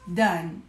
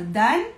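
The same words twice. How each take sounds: First: Said in the usual way. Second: Put-on asking a child. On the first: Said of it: "E ela responde". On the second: Shown as a demonstration. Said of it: "você pergunta pra ela".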